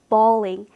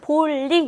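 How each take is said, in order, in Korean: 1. 영어 소리와 음절로 말했어요. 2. 한국어 소리와 음절로 말했어요. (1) "영어의 올바른 발음은 원래 발음은 bowling" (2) "우리말로는 볼링 이렇게 지금 들리지만"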